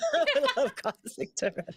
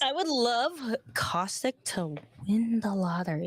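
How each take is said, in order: First: It is said while laughing, not seriously. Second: It is said firmly and confidently, without laughing.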